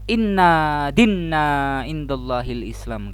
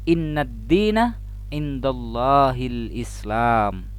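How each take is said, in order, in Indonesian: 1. n dalam dina dibaca panjang. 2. n dalam dina dibaca pendek. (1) "setelah melafalkan ayat Al-Qur'an, inna dinna indallahil Islam katanya" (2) "Padahal yang betul adalah"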